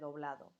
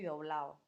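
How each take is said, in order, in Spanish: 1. Se pronuncia el sonido de la d final. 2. Se omite el sonido de la d final. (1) "en vez de doblado" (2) "la pérdida de la D intervocálica"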